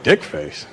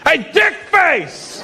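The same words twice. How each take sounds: First: Low, muted puzzlement; low-pitched questioning aside; puzzled echo. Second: Slow, high mock holler; drawn-out, high imitated heckle; calling out insultingly. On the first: Retold or imitated. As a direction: repeat the insult to yourself, baffled. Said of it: "I was like". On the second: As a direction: holler the insult at someone's back. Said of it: "behind me I hear".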